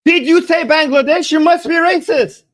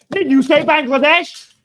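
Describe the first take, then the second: First: Louder, mocking outrage; hammed-up cry of racism; mock accusing yell. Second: Incredulous mock accusation; a hint of a scandalised critic; mock accuser. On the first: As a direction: shout it like a scandalised accuser. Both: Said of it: "And even you're like".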